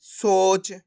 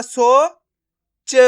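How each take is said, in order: First: सोच as one drawn-out word; blended word. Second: सो held, then च on its own; syllable by syllable. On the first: Teacher repeating the joined result, blended word. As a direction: join सो and च without a gap. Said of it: "तो मिलके बन जाएगा". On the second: Teacher repeating the breakdown for learners, syllable by syllable. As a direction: sound सो and च apart, with a pause. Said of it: "एक बार फिर से देखिए". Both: Shown as a demonstration.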